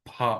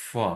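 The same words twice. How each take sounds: First: ফা with a puffed p, lips closed; wrong aspirated p. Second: ফা with a long hissing f; air-released f. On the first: Teacher showing students what not to say, aspirated p. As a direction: say ফা as a stopped, aspirated p sound. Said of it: "ফা বলবো না". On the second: Teacher showing English sound with air released, breathy f. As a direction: let the air stream out on ফা before the vowel. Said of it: "বাতাসটা বের করে দিব". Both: Shown as a demonstration.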